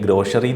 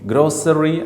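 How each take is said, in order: First: The middle consonant is an sh sound. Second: The middle consonant is an s sound. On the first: "ചിലപ്പോൾ ഗ്രോഷറി എന്നും പറയാറുണ്ട്" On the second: "ഗ്രോസറി അല്ലെങ്കിൽ ഗ്രോഷറി എന്നും പല ചിലപ്പോൾ ഉച്ചരിക്കാറുണ്ട്"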